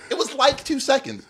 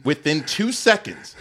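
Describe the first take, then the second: First: "like, two seconds" tossed off in a higher voice; casual exaggeration. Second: WITHIN TWO SECONDS low and slowly measured; literal emphasis. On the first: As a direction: mimic a loose figure of speech, "two seconds" pitched high. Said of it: "like, how people say". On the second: Shown as a demonstration. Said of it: "I don't mean, like, how people say".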